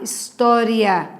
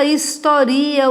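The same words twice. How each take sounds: First: História as his-TÓ-ria, with TÓ stressed. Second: Historia as his-to-RI-a, with RI stressed. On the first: Teacher showing the noun história, stressed on TÓ. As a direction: lean on the TÓ in história. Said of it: "acento na palavra paroxítona terminada em ditongo". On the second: Teacher showing the verb historia, stressed on RI. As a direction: lean on the RI in historia. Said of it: "Quando eu digo ela historia os fatos". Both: Shown as a demonstration.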